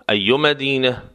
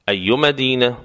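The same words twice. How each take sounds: The two takes are said the same way.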